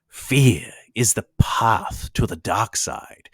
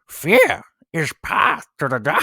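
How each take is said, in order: First: It is said in his normal voice. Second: It is said in a Yoda voice.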